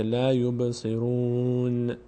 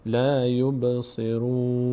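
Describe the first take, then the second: First: Slow لا یبصرون with the final n released into a little vowel; wrongly bounced nun. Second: Slow لا یبصرون ending on a held, unreleased n; nun without vowel. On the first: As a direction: bounce the closing n of یبصرون, as a mistake demo. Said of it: "اینجوری نشه". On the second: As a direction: close یبصرون cleanly on n, no bounce after it. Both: Shown as a demonstration.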